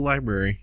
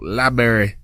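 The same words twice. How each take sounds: First: It is said in a plain accent. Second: It is said in a redneck accent.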